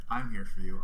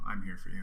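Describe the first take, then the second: First: Louder, pressing comfort; emphatic reassurance. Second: Said in the usual way. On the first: Real, not acted. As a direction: push the promise out strongly. Comforting the upset partner.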